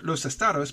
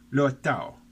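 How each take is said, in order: First: The s and d sounds are pronounced. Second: The s and d sounds are dropped.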